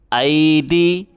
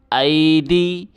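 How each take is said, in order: Both takes have the same delivery.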